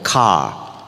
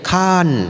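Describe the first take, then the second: First: It is said the Western way, with no R. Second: It is said the Thai way, ending in N.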